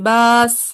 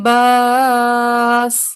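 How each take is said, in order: First: The long vowel is held only briefly. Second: The long vowel is held for moderate length. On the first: "कसर के साथ" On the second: "तवसुत के साथ"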